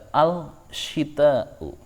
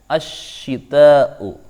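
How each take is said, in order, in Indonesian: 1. L dibaca jelas sebelum SH. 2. L melebur ke dalam bunyi SH yang mengikutinya. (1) "Tidak boleh membaca" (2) "maka cara bacanya"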